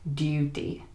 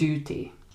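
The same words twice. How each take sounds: First: The vowel is a yoo sound. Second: The vowel is a simple oo sound. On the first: "in the British accent, we are more likely to say something like duty with the U sound" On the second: "in American English, they're likely to say something like duty"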